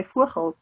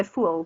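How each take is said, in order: First: "voegel" with the G sounded; Dutch pronunciation. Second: "voel" as one short syllable, no G; Afrikaans pronunciation. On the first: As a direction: say "voegel" in full, two syllables. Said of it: "So they'll say". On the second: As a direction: clip it to "voel", dropping the G. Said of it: "we'll say". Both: Shown as a demonstration.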